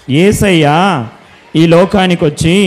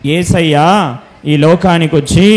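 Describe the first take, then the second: No difference in how they are said.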